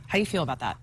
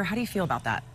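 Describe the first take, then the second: First: Much lower, teasing repeat. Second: Said in the usual way. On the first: Pretend. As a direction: drop the voice low and tease. Teasing repeated question to host.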